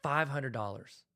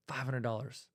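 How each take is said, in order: First: Slow, weighing the price; slow musing. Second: Softer musing. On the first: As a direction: mull the number over slowly. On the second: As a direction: repeat it softer, to yourself. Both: Shown as a demonstration. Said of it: "you're like".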